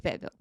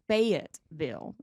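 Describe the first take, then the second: First: The name is said quickly and clipped. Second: Every syllable of the name is clearly enunciated. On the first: The speaker has lived in the town a long time. "we don't enunciate it. So you just say Fayetteville" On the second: The speaker is not from the town. "they enunciate and they go"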